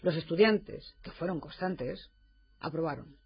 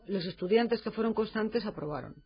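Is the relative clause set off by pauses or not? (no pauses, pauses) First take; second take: pauses; no pauses. First: Pauses come before and after the relative clause. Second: The sentence runs on without pauses. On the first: All the students were constant, and they passed. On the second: Only those students who were constant passed.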